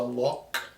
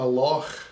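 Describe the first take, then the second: First: It ends with a hard 'k' sound. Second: It ends with a throaty, breathy 'ch' sound. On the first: "versus a loch" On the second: "the C H, like a loch"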